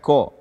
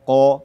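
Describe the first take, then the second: First: The q sound is thin and light. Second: The q sound is thick and deep. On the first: The speaker calls it wrong. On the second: The speaker calls it right. "tidak menyempurnakan ketebalan qaf"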